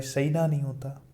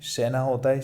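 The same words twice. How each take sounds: First: सैना with a wide ai diphthong; wrong pronunciation. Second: Said in the usual way. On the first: Shown as a demonstration. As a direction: glide from a to i in सैना. (सैना में गलत ऐ की ध्वनि)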